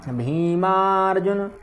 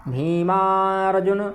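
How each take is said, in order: Both takes have the same delivery.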